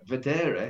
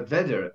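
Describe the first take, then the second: First: Vedere as ve-DE-re; corrected second-syllable stress. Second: Vedere tried as VE-de-re; mistaken first-syllable stress. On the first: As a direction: lean on the middle syllable of vedere. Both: Shown as a demonstration. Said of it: "you've mixed my head up now".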